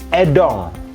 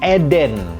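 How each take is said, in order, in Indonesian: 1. Nama ini berakhir dengan bunyi sengau -ong. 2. Nama ini berakhir dengan bunyi -en yang jelas. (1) "kalau sesuai teori kan harusnya dibacanya Edong" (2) "ini N-nya unik"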